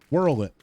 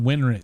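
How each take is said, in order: First: The name starts with a 'whirl' sound. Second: The name starts with a 'win' sound. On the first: The speaker calls it right. "Whirl it, not Winrit" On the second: The speaker calls it wrong. "Am I saying that right?"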